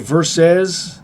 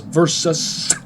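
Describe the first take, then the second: First: The final syllable sounds like 'sez'. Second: The final syllable sounds like 'sus'. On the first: The speaker calls it wrong. "I'll forgive you if you say verses" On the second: The speaker calls it right. "pronounced with a sus, not a says"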